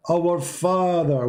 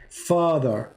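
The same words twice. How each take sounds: First: "our" drawn out slowly and stressed, rising in pitch. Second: Said in the usual way. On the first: Shown as a demonstration. Preacher stressing "our" in the Lord's prayer to listeners. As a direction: lean slowly on "our" before "Father".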